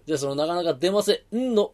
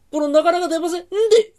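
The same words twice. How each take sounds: First: Said in the usual way. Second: このなかなか出ませんんで with the final ん doubled, high and loud through a laugh; extra n tacked on. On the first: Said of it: "んの字で田楽一本". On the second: Shown as a demonstration. Cheeky guest doubles the ん to win skewers, laughing. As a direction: lean on 出ませんんで, holding the added ん. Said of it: "そのなかなか出ませんの、んの字で".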